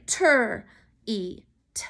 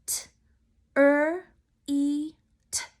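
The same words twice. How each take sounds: First: "ter, E, T" as three chunks, tr, ee, t; blend left joined. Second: "T, er, E, T" as four separate sounds, t, r, ee, t; sounded out. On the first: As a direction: run T and R together as "ter", then separate E and T. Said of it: "some of you might have wanted to say". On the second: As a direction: break treat fully apart, pausing between T and er. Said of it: "Break it with me". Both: Shown as a demonstration.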